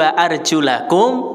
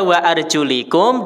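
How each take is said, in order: First: The vowel before 'kum' is an open 'a'. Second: The vowel before 'kum' is a close 'i'. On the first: The feet are to be washed. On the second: The feet are to be wiped.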